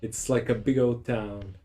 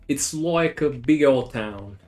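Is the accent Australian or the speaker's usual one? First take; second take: usual; Australian. First: It is said in the speaker's usual accent. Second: It is said in an imitated Australian accent.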